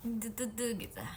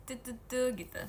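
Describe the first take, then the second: No difference in how they are said.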